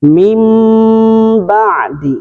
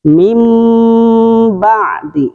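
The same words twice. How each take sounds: The two takes are said the same way.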